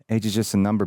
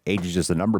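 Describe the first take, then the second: First: It is read in a plain, normal voice. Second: It is said in a put-on character voice.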